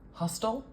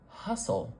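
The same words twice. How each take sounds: First: It is said with a T sound. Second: It is said with no T sound. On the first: The speaker calls it wrong. "Am I saying hustle? Hustle? No" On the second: The speaker calls it right. "Do you hear a T?"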